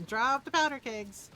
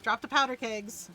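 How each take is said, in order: Both takes have the same delivery.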